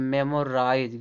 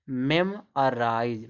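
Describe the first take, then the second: First: "मेमोराइज" with a full o, mem-o-raaiz; wrong pronunciation. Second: "मेमोराइज" drawn out as mem-a-raaiz; teacher's model "मेमोराइज", middle vowel reduced to a; correct pronunciation. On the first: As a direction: say "मेमोराइज" with a rounded middle o. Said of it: "गलत". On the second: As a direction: slowly say "मेमोराइज" with a weak uh for the o. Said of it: "इसको क्या पढ़ा जाएगा?". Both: Shown as a demonstration.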